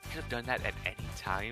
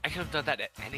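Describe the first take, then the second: First: It is spoken in a whisper. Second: It is spoken in a normal voice.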